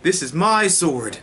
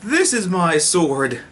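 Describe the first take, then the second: First: This is MY sword, slow, leaning on "my"; stress on my. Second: THIS is my sword, slow, leaning on "this"; stress on this. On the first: Showing off his sword to fans, stress on my. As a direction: draw out "my" in this is my sword. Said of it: "because this is my sword". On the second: Trying another take for fans, stress on this. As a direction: hit "this" hard in this is my sword. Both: Shown as a demonstration.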